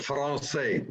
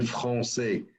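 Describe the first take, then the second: First: Français with a hard English R and anglicised vowels. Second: Français with a French uvular R and nasal ending; proper French. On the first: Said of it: "français with R". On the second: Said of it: "instead of saying français". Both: Shown as a demonstration.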